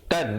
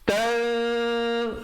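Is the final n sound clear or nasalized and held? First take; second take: clear; nasalized. First: The n is pronounced clearly and briefly. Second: The n is hidden and nasalized for two beats. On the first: "tan di situ bunyinya" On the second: "ikhfa, dua harakat"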